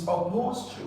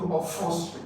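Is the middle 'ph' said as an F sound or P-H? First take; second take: P-H; F sound. First: The middle consonants are said as separate P-H. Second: The middle consonants are said as an F sound. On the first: The speaker calls it right. "The P and E are realized here... They do not change to F" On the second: The speaker calls it wrong. "most students tend to pronounce it wrongly"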